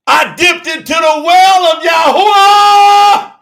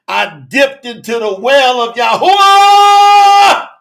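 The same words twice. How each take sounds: First: Higher shout. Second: Said in the usual way. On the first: Real, not acted. Preacher repeating his testimony to the church, shouting. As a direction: repeat it higher and louder, slow. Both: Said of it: "repeated louder".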